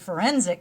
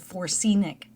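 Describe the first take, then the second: First: The word is said in its standard form. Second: The word's sounds are jumbled and misplaced. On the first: The speaker calls it right. "but it's actually a forensic specialist" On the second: The speaker calls it wrong. "I always would read that it's a Forsenic specialist"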